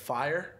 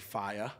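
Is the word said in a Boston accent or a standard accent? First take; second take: standard; Boston. First: The word is said in a standard accent. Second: The word is said in a Boston accent. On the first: "instead of fire" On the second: "I used to have the most gnarly Boston accent"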